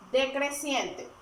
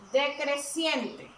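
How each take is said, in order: First: Said in the usual way. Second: Slow emphasis. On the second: Shown as a demonstration. Teacher stressing key term.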